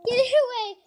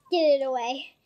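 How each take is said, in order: First: Higher, louder panicked plea; phobic panic. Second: Said in the usual way. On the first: Real, not acted. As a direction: push it away, frightened.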